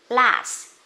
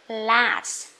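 The two takes are said the same way.

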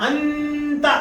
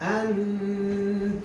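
First: The nasal sound is pronounced fully and clearly. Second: The nasal sound is hidden and softened. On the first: The speaker calls it wrong. "അന്ത എന്ന് വ്യക്തമാക്കിയല്ല മണിക്കുന്നത്" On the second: The speaker calls it right. "അന്ത ഒരു മറപ്പ്"

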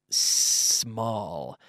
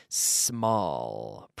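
The two takes are said the same way.

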